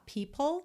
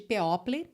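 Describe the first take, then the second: First: The word is said as two short syllables. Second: The spelled vowels are sounded out separately. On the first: The speaker calls it right. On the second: The speaker calls it wrong.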